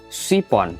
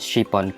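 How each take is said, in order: First: The word begins with a heavy, emphatic s sound. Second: The word begins with an sh sound. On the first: The speaker calls it wrong. "apalagi sipon pakai sod" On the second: The speaker calls it right. "pengucapannya harus pakai shin, sin besar yang ada titiknya tiga"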